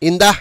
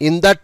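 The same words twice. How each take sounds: The two takes are said the same way.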